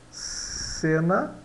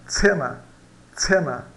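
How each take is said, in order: First: Said in the usual way. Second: "cena" como "tsena"; C com som de TS. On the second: Shown as a demonstration. ("cena" pronunciado com TS inicial) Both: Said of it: "ele vai dar C".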